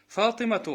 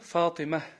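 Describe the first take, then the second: First: The name ends with a t sound and vowel. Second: The name ends with a light h sound.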